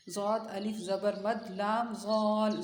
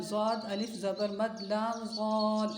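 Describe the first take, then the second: First: Chanted, ज़ाद अलिफ ज़बर मद लाम ज़ाल spelled slowly, each piece clear; chanted, recite the spelling slowly for memorising. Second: Said in the usual way. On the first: Shown as a demonstration. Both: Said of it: "पहले ये याद करवाएं इतना".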